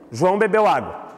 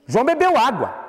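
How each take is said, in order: First: The voice falls calmly at the end. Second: The voice is emphatic and exclaiming. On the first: It is a plain statement of fact. "Com ponto final" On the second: It expresses surprise or strong feeling. "Se fosse uh, exclamação"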